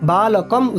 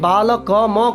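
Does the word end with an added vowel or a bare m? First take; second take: bare m; added vowel. First: The final m has no vowel after it. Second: The final m is followed by a vowel. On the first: The speaker calls it right. "বালকম উচ্চারণ করব আমরা" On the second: The speaker calls it wrong. "অনেকে বালক ম করে দেয়"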